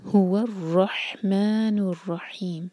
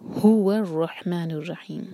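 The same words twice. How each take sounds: First: Slow, हा in रहमान and रहीम from the throat; clear ha. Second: हु of हुवा stressed, वाव joined to रॉ. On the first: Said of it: "हा clear". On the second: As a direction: hit हु, slide into रहमानुर. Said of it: "हु पर जोर देंगे". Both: Shown as a demonstration.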